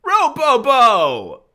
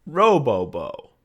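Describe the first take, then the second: First: Very high, drawn-out shout; over-the-top slow yell; gleeful catchphrase. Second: Higher, louder, drawn-out silly name; slow singsong demo of a funny sound; savored catchphrase. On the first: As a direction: belt the silly sound out slowly. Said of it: "I need to say this sound". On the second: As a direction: draw out each syllable with relish. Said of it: "Say it at home right now". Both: Shown as a demonstration.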